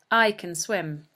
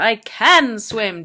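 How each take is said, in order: First: The word 'can' is unstressed. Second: The word 'can' is stressed. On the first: It is a plain neutral statement. "in this sentence, is pronounced can" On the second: It denies a claim of being unable. "if you want to put emphasis on it"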